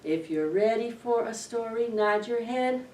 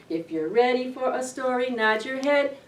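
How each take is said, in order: Both takes have the same delivery.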